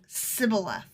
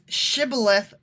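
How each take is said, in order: First: The word begins with a plain 's' sound. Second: The word begins with a 'sh' sound. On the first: The speaker is from the tribe. The speaker calls it wrong. "they couldn't say their S H's right" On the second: The speaker is not from the tribe. The speaker calls it right. "Because it's Shibboleth versus Sibboleth"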